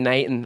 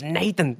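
First: The t and h sound is dropped. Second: The t and h sound is fully pronounced. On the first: This is the casual local way of saying it. The speaker calls it wrong. "he'd say Nathan" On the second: This is the careful, correct way of saying it. The speaker calls it right. "the more grammatically correct approach"

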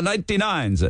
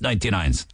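First: It is said with an imitated Italian accent. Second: It is said in the speaker's ordinary accent.

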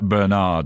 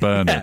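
First: The name is said with an American pronunciation. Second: The name is said with a British pronunciation. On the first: "like the Americans say like Bernard" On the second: "instead of Bernard"

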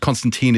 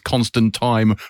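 First: The last syllable does not rhyme with rhyme. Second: The last syllable rhymes with the word rhyme. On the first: This is more of an American pronunciation. "Constantine is more of an American thing" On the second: This is the more common British pronunciation. "Constantine rhymes with rhyme"

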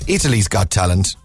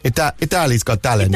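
First: It is said in the speaker's ordinary accent. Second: It is said in a put-on Italian accent.

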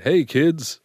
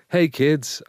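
First: It is said in a creepy man's voice. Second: It is said in a cheerful Tigger voice.

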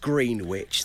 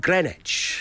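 First: It is said as spelt, with the w. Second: It is said like grinitch, w silent. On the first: This is how the spelling suggests it. The speaker calls it wrong. "no one ever says Greenwich" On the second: This is how people actually say it. The speaker calls it right. "They say Greenwich"

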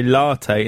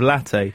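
First: The first vowel is a long 'ar' sound. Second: The first vowel is a short 'a' sound. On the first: The speaker calls it wrong. "It annoys me when people say latte" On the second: The speaker calls it right. "two T's, short A"

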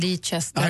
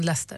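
First: The name is given a literal, letter-by-letter reading. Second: The name is given its usual short spoken form. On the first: This is how the name looks in print. The speaker calls it wrong. "det är de nu står i tidningen Leicester" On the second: This is how people actually say the name. The speaker calls it right. "så säger man Leicester"

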